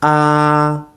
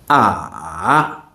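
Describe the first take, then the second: First: The vowel is said with the first tone. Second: The vowel is said with the third tone. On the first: "I'm going to do all the vowels with the first tone" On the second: "Now the third tone"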